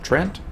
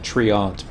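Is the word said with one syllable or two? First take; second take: one; two. First: The word is said as one syllable. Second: The word is said as two syllables.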